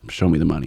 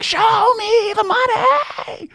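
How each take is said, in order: First: It is spoken at a normal volume. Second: It is screamed loudly in an impression.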